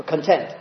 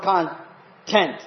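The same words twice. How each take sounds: First: "content" stressed on the second syllable, con-TENT; "content" as con-TENT, the way Paul means it; conTENT, adjective stress. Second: "content" stressed on the first syllable, CON-tent; "content" as CON-tent, the dictionary noun. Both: Shown as a demonstration. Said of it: "the word content or content".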